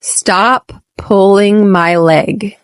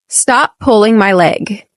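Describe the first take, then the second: First: Slow, each word of "Stop pulling my leg" drawn out clearly; slow model take. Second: Said in the usual way. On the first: Shown as a demonstration. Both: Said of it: "Repeat after me".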